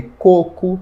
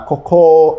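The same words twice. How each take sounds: First: Coco with the stress on the first syllable. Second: Cocó with the stress on the last syllable; stress on final syllable. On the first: Teacher contrasting two lookalike words, first-syllable stress on coco. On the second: Teacher contrasting two lookalike words, final stress on cocó. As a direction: punch the end of cocó. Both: Shown as a demonstration. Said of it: "é de falar cocó e coco".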